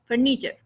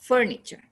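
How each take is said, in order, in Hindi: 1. पहला अक्षर जल्दी बोला जाता है; दूसरा लंबा होता है। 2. स्ट्रेस पहले अक्षर पर है। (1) "फर को जल्दी बोल देते हैं और नी लंबा" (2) "पहले पे साउंड में"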